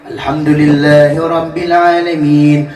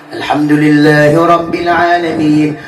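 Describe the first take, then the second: Both takes have the same delivery.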